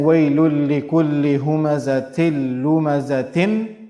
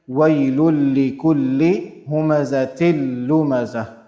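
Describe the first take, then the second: First: The last word ends with a full 'tin' sound. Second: The last word ends with a clear 'h' sound. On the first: The speaker calls it wrong. "instead of saying" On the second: The speaker calls it right. "we'll be saying"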